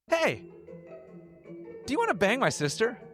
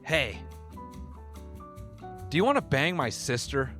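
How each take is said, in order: First: The question is said in a warm, inviting tone. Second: The question is said in a harsh tone. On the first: "It's going to sound like an invitation" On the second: "when I say it, it sounds harsh"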